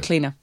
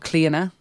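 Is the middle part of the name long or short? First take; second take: short; long. First: The middle vowel of the name is short. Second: The middle vowel of the name is lengthened. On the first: "in an English accent" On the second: "just makes it that middle part a little bit longer"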